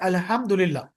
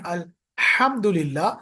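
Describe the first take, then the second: First: The h is a plain, light breath. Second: The h comes from deep in the throat. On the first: The meaning changes into something offensive. The speaker calls it wrong. "if I say alhamdulillah, then the meaning will get changed" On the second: All praise belongs to God. The speaker calls it right. "instead of saying"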